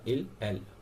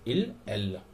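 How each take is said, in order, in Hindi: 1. ये शब्द हल्के से बोले जाते हैं, बिना ज़्यादा ज़ोर के। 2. ये शब्द ज़्यादा ज़ोर और दबाव के साथ बोले जाते हैं। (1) "इसे सिंपली बोला जाता है हल्का सा" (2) "इसे जोर से"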